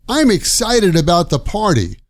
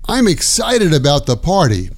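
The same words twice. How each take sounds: No difference in how they are said.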